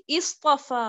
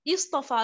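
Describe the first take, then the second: First: इस्तफा begun with a short "i"; इस्तफा said as "is-tafa"; kasra start. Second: इस्तफा again, opened with a short "i"; इस्तफा said as "is-tafa" once more; repeated kasra start. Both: Shown as a demonstration. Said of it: "मैं इसको पढ़ूंगी".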